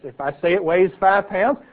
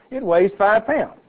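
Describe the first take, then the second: First: Said in the usual way. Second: "pounds" pressed down slowly and firmly; slow, firm insistence. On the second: Shown as a demonstration. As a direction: lean on "it weighs five pounds" word by word.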